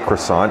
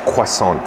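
First: It is pronounced with an English-style sound. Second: It is pronounced with a French-style sound. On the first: This is how the speaker personally says it. "I say croissant" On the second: This is how someone else says it. "Real French pronunciation right there"

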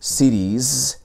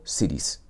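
First: The final sound is a voiced, buzzing z. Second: The final sound is a voiceless, hissing s. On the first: The speaker calls it right. "la S tiende a sonar como una Z que es más sonora" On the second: The speaker calls it wrong. "y no cities"

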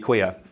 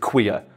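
First: The word is said in a plain, neutral way. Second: The word is said with a contemptuous sneer. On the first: It is simply a normal fact about the person. "it's a normal thing" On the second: The person is looked down on as one of those. "add that little sneer to. Because I think the way Homer said it is queer"

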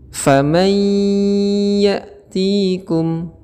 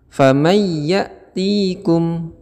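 First: A nasal hum is held for two beats. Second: The nasal hum is missing before the y. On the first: The speaker calls it right. "Yang benar ... ditahan sebentar, minimal dua harokat" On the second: The speaker calls it wrong. "tidak disertai gunnah atau dengung"

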